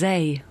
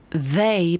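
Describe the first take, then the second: First: The th sound is replaced by another sound. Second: The word starts with a th sound. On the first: The speaker calls it wrong. "they becomes they" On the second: The speaker calls it right. "they becomes they"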